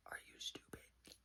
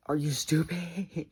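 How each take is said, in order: First: Barely audible whisper; hushed, voiceless disbelief. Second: Loud, drawn-out exasperation; stretched, raised-voice incredulity; exasperated outburst. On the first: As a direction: whisper it as a stunned question. Acted confrontation, whispered first take. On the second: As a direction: say it louder, higher and slower. Acted confrontation, repeated louder. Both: Acted.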